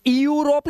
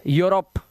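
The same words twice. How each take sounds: First: यूरोप begun high with a separate ee, ee-yoo-rop; wrong pronunciation. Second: यूरोप begun straight on yoo; correct pronunciation. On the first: Teacher shows students the misreading, यूरोप with extra ee. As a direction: split the start of यूरोप into ee-oo. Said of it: "ये यूरोप नहीं है". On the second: Teacher gives students the right reading, यूरोप starting on yoo. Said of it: "ई और यू को यू से पढ़ना है". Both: Shown as a demonstration.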